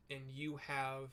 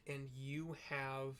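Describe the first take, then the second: No difference in how they are said.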